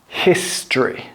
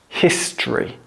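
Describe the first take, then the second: First: The middle vowel is dropped entirely. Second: The middle vowel is dropped entirely.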